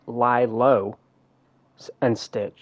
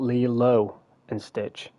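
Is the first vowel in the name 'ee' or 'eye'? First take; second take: eye; ee. First: The first vowel of the name sounds like 'eye'. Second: The first vowel of the name sounds like 'ee'. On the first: The speaker calls it right. "it's actually Lie Low and Stitch" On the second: The speaker calls it wrong. "not Lee Low and Stitch"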